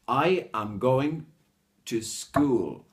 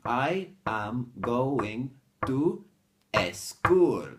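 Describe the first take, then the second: First: 'School' starts directly with s, in one beat. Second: An extra vowel comes before 'school', giving two beats. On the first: The speaker calls it right. "So you have to say" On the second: The speaker calls it wrong. "you're putting in another beat"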